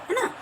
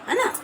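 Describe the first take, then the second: No difference in how they are said.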